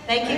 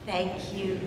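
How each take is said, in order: First: The words are spoken loudly with full voice. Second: The words are spoken a little louder. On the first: "And now just lift it up. Just let it go" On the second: "Lift your voice just a little bit"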